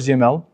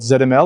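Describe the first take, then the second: First: The letters are said the American way. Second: The letters are said the European way.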